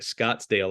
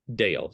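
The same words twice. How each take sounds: First: An s sound joins Scott and dale. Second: No s sound comes between Scott and dale. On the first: It names the place in Arizona. The speaker calls it wrong. "a lot of people think Scottsdale like Arizona" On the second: It names the local community. The speaker calls it right. "so there's no S in there"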